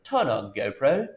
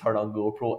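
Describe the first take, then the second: First: It is said in a put-on English accent. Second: It is said in a Scottish accent. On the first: The device responded to it immediately. "I put on this fake English accent" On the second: The device did not respond to it. "in my accent"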